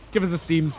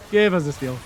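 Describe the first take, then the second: First: "steam" said for steal, ending in m; "Give us a steam" with a slipped m sound. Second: "steal" said clearly with the l ending, louder; "Give us a steal" corrected, a louder call. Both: Real, not acted.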